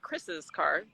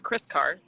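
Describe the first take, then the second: First: The name gets an extra syllable before 'car'. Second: The name has no extra syllable before 'car'. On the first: The speaker calls it right. "I would say Chris's car" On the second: The speaker calls it wrong. "instead of Chris car"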